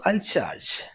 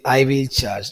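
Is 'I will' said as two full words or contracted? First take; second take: contracted; full. First: I will is contracted into one syllable. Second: I will is said as two full words. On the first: The speaker calls it right. "The short form" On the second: The speaker calls it wrong. "We say I will charge. No"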